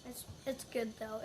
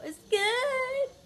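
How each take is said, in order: First: Said in the usual way. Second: Much higher, squeaky strained voice; strained squeak. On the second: Real, not acted. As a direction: squeak it out, puckered. Tasting the candy.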